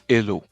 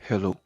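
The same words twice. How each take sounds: First: The word starts without an h sound. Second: The word starts with an audible h sound. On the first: The speaker calls it wrong. "c'est pas hello" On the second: The speaker calls it right. "Parce que le H en anglais a une prononciation"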